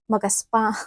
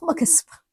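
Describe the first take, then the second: First: Said in the usual way. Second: Giggling repeat of the word magaspang; laughing. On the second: Real, not acted. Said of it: "laughs magaspang".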